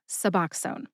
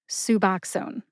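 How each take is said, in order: First: The stress is on the middle syllable. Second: The stress is not on the middle syllable. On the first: The speaker calls it right. "Emphasize that middle syllable" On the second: The speaker calls it wrong. "how I started off pronouncing Suboxone"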